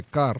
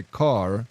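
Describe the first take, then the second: First: Kar with a trilled Afrikaans R; kar, roll the R at the front. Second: Said in the usual way. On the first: Shown as a demonstration. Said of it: "then I roll it". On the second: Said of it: "When I speak English, if I say car".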